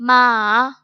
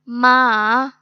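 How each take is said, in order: First: The pitch falls and then rises. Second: The pitch falls and then rises.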